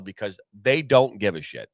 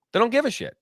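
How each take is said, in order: First: Said in the usual way. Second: "They don't give a shit" pitched higher, with weight on "give"; emphatic repeat. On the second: Real, not acted. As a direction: hammer "give" home the second time. Repeated complaint, emphatic second take.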